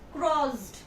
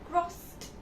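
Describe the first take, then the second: First: The word ends with a voiced D sound. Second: The word ends with a voiceless T sound. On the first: The speaker calls it wrong. "you will not say this word as crossed. Duh" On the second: The speaker calls it right. "Here the T sound is coming"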